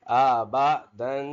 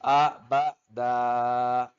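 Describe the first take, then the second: First: आ बा दन, slow with the final दन sounded through the nose; teacher sounds out आ बा दन with a nasal ending; nasal tanween ending. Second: आ बा दा very slow, final दन cut to a long open दा; pausal ending. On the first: Teacher drills tanween ending through the nose. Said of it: "नाक में आवाज इसकी पैदा करेंगे". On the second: Teacher shows stopping at a verse break. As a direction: stop on दा, drop the nasal ending. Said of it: "हम बोलेंगे वक्फन". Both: Shown as a demonstration.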